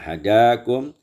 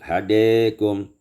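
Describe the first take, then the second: First: The second vowel is a fully open a. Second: The second vowel is raised slightly toward e.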